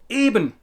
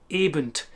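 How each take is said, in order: First: The word ends cleanly on the n sound. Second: The word ends with an extra t sound. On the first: The speaker calls it right. "And I say" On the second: The speaker calls it wrong. "you quite often hear Germans saying"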